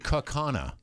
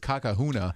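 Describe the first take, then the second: First: The word has no 'h' sound in the middle. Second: The word has an 'h' sound in the middle. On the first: This is the local pronunciation. The speaker calls it right. "It's actually" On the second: This is how an outsider said it. The speaker calls it wrong. "It was pronounced by national news, some national news person a few years back as"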